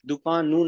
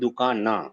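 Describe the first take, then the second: First: The word ends with a 'u' vowel. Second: The word ends with an 'a' vowel. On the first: The speaker calls it wrong. "दुकानू नहीं" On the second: The speaker calls it right.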